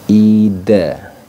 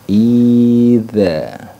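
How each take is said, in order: First: The middle consonant is a plain d. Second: The middle consonant is a soft th. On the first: The speaker calls it wrong. "biasanya kecenderungannya pakai dal" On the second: The speaker calls it right. "Yang seharusnya adalah idza. Pakai zal"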